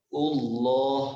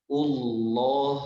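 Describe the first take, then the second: Both takes have the same delivery.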